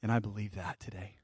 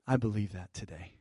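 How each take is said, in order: First: Soft declaration. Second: Soft declaration, softer. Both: Real, not acted. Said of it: "I'm just declaring it to you".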